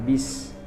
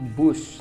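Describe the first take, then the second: First: The word has an 'i' vowel. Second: The word has a 'u' vowel. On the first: The speaker calls it wrong. "kata bis di sini itu kata tidak baku, salah pengucapannya" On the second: The speaker calls it right. "Seharusnya saya pergi menggunakan bus"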